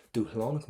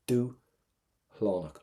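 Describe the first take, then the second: First: Said in the usual way. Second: Dúshlánach said slowly with the S dropped to a breath; softened S in Dúshlánach. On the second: Shown as a demonstration. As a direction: stretch out Dúshlánach, barely a breath where the S is. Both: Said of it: "what you're gonna do to the letter S".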